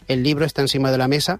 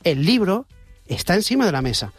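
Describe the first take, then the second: First: It is said flat, without intonation. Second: It is said with lively, varied intonation.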